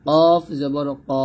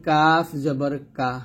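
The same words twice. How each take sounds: First: Slow কফ জবর ক with a heavy back-of-tongue consonant; teacher's slow spelling of কফ জবর ক, consonant thick and far back; thick qaf drill. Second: কাফ জবর কা with a light, thin k; teacher's spelling drill, thin forward consonant in কাফ; thin kaf. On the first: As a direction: say কফ and ক thickly, drawn out. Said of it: "মোটা করে উচ্চারণ করতে হবে". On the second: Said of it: "পাতলা করে আমরা উচ্চারণ করবো". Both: Shown as a demonstration.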